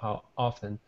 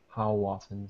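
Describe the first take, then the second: First: There is a break before 'often'. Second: The two words glide smoothly together. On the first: The speaker calls it wrong. "We don't stop on the O" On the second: The speaker calls it right. "But we just glide it together"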